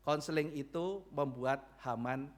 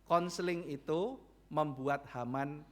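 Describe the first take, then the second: No difference in how they are said.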